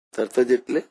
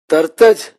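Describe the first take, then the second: First: Said in the usual way. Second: Louder, ringing call of the key word; emphatic cry. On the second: Acted. Preacher to congregation stressing how fast God comes, loud emphatic call. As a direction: proclaim it so it lands on the hall.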